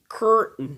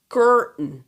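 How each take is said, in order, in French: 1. Le son T est omis devant le N. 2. Le son T est omis devant le N.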